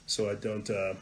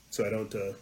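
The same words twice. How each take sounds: The two takes are said the same way.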